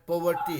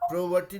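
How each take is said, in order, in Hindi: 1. पहले अक्षर में R नहीं है: po। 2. पहले अक्षर में R है: pro। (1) "पो है, पोवर्टी है ना" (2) "प्रोवर्टी नहीं है"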